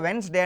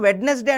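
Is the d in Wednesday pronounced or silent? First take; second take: silent; pronounced. First: The middle d sound is silent. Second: The middle d sound is pronounced. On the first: The speaker calls it right. "వెన్స్డే అని అనాలి, డి silent" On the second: The speaker calls it wrong. "అందరూ వెడ్నెస్డే అంటూ ఉంటారు, అలా అనడం తప్పు"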